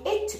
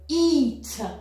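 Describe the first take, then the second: First: The vowel is a short i sound. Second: The vowel is a long ee sound. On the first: The speaker calls it wrong. "ça n'a plus de sens" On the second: The speaker calls it right. "« Eat » avec un « i » long"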